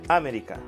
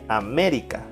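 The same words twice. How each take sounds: First: The stress is on the first syllable. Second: The stress is on the second syllable. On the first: "Si fuera en A" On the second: "Si es en me"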